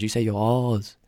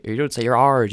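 First: Non-rhotic "R's", a long open vowel before z; R's without R. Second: "R's" pronounced rhotic, r heard before the z; R's with R sounded. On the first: Imitating Americans mocking the accent, R's with r dropped. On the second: Imitating Americans commenting on speech, R's with r sounded. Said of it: "Oh, you sound smart. You don't say your R's". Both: Retold or imitated.

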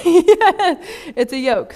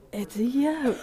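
First: Higher, louder, slow, laughing through it; laughing repeat. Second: Said in the usual way. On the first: Real, not acted. Repeating the answer to the group, laughing. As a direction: laugh as you say It's a yoke.

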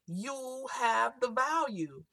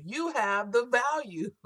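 First: Sudden slight accent shift on "You have the value"; the accent slips in on "You have the value". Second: "You" leaned on, slow and falling; stress on you. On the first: Real, not acted. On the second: Shown as a demonstration. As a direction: say it again, punching "You". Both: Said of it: "I don't know why my accent just changed then".

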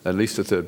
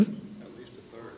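First: Said in the usual way. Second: Breathy hushed whisper, slow. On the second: Acted. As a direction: murmur it like a secret, slowly. Whispered answer to own question.

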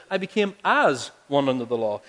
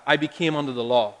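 First: As leaned on, falling; as one said with weight; stress on as. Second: Said in the usual way. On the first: Shown as a demonstration. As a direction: hit the word as in as one. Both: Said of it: "No, he says".

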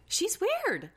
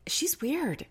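First: Put-on much higher squeaky baby voice; exaggerated high baby voice. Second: Put-on high, slow babyish voice; slow, higher baby voice imitation. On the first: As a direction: push the baby voice way up. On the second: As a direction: keep the baby voice going. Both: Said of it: "has a baby voice".

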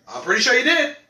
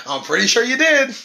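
First: Said in the usual way. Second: A little louder, pressing on did; leaning hard on "did" the second time; pushier repeat. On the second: Shown as a demonstration. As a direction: repeat it as a teasing insistence.

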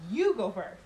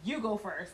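First: YOU punched louder in "You go first"; stress on YOU. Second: Said in the usual way. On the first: Retold or imitated. Ordering the man behind her, stress on YOU. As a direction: hit "You" hard, as a firm order. Repeats order with more force.

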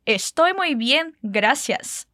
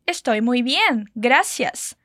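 First: Slow repeat. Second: Slow, clear Estoy muy bien, gracias; slow model phrase. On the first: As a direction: say it once more, slowly. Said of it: "Diz mais uma vez". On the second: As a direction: say it slowly for the learner. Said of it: "como a gente diz". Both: Shown as a demonstration.

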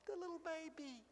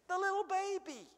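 First: Put-on a soft, hushed little baby; almost dropped to nothing; hushed wonder. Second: Put-on higher, marveling little baby; lifted in astonishment; rising wonder. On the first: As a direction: breathe the words in awe. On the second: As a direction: lift it up in amazement. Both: Repeats the phrase for effect.

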